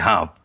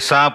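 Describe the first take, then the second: First: The word begins with an h sound. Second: The word begins with an s sound. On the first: This is how people say it further west. "वहां कहेंगे ... सह का है हो जाना" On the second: This is how people say it here. "यहां कहेंगे"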